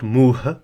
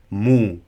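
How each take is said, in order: First: The word ends with an audible h sound. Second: The word ends with a change in pitch. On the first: The speaker calls it wrong. "So not muh" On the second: The speaker calls it right. "mu, which means face"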